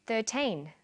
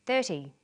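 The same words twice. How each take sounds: First: THIRTEEN with a long, clearly finished final N; minimal-pair demo. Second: THIRTY with a short, light -ty and no final N; minimal-pair demo. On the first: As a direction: say THIRTEEN carefully, holding the teen. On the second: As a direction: say THIRTY carefully, first syllable strong. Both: Shown as a demonstration. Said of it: "Listen to these pairs of numbers".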